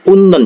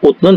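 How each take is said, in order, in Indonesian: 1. Bunyi t berubah menjadi n sebelum n. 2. Bunyi t tetap dipertahankan sebelum n. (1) "tapi unnen" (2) "bukan utnen"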